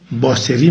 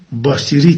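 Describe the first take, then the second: First: Said in the usual way. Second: "باسری" with the local ee vowel, bâ-si-ri; Eghlid dialect pronunciation. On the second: Shown as a demonstration. Presenter showing listeners how Eghlid says it, "باسری" pronounced bâsiri in dialect. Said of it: "که در گویش اقلید".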